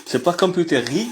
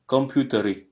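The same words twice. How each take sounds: First: Computeri said the wrong way, high with a flat French r; wrong pronunciation shown. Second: "computeri" with a rolled r and a throaty final i; correct pronunciation. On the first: Teacher showing students the wrong way, a mock wrong "computeri". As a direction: pitch up on "computeri" to mark it as the error. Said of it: "C'est pas computeri, mais c'est computer". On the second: Teacher modelling the right Russian plural for students, careful demo. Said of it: "Le R se roule et le I, c'est guttural". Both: Shown as a demonstration.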